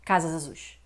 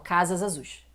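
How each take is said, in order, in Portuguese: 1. O S final emenda direto na vogal seguinte. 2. O S final emenda direto na vogal seguinte.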